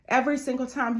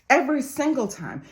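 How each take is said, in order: First: It is said at normal volume. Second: It is said louder, with more force.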